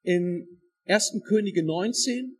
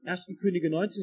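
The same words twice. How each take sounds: First: Slow, loud, spelled out for note-taking; "in ersten Könige neunzehn" spoken slowly and loudly; slow for dictation. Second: Said in the usual way. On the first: Shown as a demonstration. Preacher gives the congregation the reference to write down, slowly. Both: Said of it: "schreibt euch das einmal auf".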